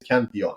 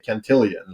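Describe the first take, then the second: First: The name ends with a plain 'lon' sound. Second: The name ends with a 'lion' sound, like billion. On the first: The speaker calls it right. "His name is Cantillon" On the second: The speaker calls it wrong. "Bitcoiners say Cantillion, like billion"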